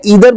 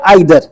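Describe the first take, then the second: First: The first vowel sounds like 'ee'. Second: The first vowel sounds like 'eye'. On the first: "दो pronunciation है" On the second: "दो pronunciation है"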